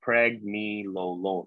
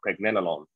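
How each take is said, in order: First: "pregnenolone" drawn out as preg-NEE-lo-lone; long-E pronunciation. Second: "pregnenolone" as preg-NEL-uh-lone; short-E pronunciation. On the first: Lecturer showing students one way to pronounce it, long-E "pregnenolone". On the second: Lecturer offering students the other pronunciation, short-E "pregnenolone". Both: Shown as a demonstration. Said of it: "however you wanna pronounce this".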